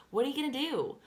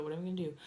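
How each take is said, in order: First: High, loud "what are you gonna do"; emphatic rhetorical question. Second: Said in the usual way. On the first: Real, not acted. Same question thrown out emphatically.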